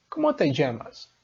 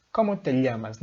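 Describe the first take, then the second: First: "llamas" said as "jamas", ll like the s in measure; llamas with zh sound. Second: "llamas" said with a clear l, like "lamas"; teacher gives "llamas" a plain l sound. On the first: Teacher to students showing one variant: "llamas" with zh. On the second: Teacher to students showing the l variant of "llamas". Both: Shown as a demonstration. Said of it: "Não importa a variação".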